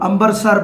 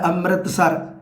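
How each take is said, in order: First: The word is said in a shortened form. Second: The word is said in its full form. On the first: The speaker calls it wrong. "ਇਸ ਤਰ੍ਹਾਂ ਅੰਬਰਸਰ ਬੋਲ ਦੇਣਾ" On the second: The speaker calls it right. "ਸ਼ੁੱਧ ਸ਼ਬਦ ਹੈ ਅੰਮ੍ਰਿਤਸਰ"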